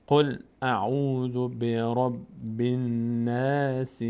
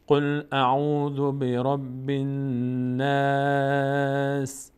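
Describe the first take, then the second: First: Very slow, sustained verse with vowelled ending; slow recitation. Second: Very slow, higher chant, "الناس" ending on a held s; stopping on silent sin. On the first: Quran teacher modelling the whole verse, slow measured recitation. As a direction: hold each long vowel, ending "الناس" on a short i. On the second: Quran teacher pausing at verse end, sustained higher recitation. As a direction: stretch "الناس" long and close on a vowelless s. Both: Shown as a demonstration.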